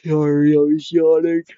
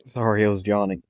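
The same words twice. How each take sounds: First: Talking through a real yawn, high and loud; mid-yawn. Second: Said in the usual way. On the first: Real, not acted. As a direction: let a big yawn stretch the words upward.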